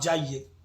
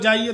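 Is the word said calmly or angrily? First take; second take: calmly; angrily. First: It is said calmly and gently. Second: It is shouted angrily with full force. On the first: It sounds polite and pleasant. "एक शांत बोलना ... अब ऐसे बोलो आप जाइए तो कितना अच्छा लगा" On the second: It frightens the listener into running away. "अब क्रोध करके पूरा शक्ति लगा के चिल्ला के बोलो"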